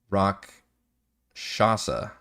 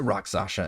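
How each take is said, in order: First: The word ends sounding like 'shasa'. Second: The word ends sounding like 'sasha'. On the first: The speaker calls it right. "Rock Shasa, not Sasha" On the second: The speaker calls it wrong. "Am I saying that wrong? I am saying that wrong"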